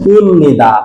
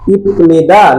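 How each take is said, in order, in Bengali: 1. 'nida'-র আগে m ধ্বনি আসে। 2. 'nida'-র আগে p ধ্বনি আসে। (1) "রাইট, ইমনিদা" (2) "ইপনিদা নাকি ইমনিদা?"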